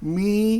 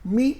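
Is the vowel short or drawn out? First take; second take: drawn out; short. First: The vowel is drawn out long. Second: The vowel is short, not drawn out. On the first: The speaker calls it wrong. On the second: The speaker calls it right.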